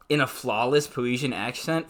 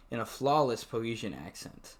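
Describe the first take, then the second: First: Mocking, incredulous rise on in; sarcastic requote. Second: Said in the usual way. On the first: Shown as a demonstration. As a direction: scoff at the line as you repeat it. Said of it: "Fuck you. You wouldn't even know".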